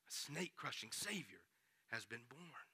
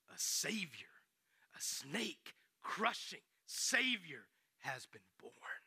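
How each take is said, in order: First: Quiet but voiced, much softer than the talk around it; soft voiced repeat. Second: Like telling a sacred secret; slow breathy announcement; awed whisper. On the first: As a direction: let it land gently. Preacher repeats, softly voiced. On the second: Acted. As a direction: whisper the news slowly, with wonder. Angel's announcement, hushed.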